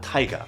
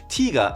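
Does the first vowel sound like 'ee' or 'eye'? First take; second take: eye; ee. First: The first vowel sounds like 'eye'. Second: The first vowel sounds like 'ee'. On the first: The speaker calls it wrong. "not Taiga" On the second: The speaker calls it right. "Tiga and not Taiga"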